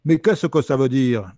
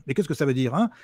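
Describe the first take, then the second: First: Slow, louder Toulouse accent, mocking; sneering Toulouse accent imitation. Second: Said in the usual way. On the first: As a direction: stretch it out in a caricatured Toulouse accent. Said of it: "Donc ça donne ça". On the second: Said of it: "mais avec son accent normal".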